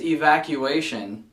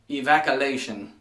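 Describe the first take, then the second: First: Evacuation said e-vac-yoo-ay-shun; correct pronunciation. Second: Evacuation said e-vac-uh-lay-shun, with an l; imitating a mispronunciation. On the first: Shown as a demonstration. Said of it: "not evacuation". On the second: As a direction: evacuation with a funny l. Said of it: "funny as hell to pronounce it the other way".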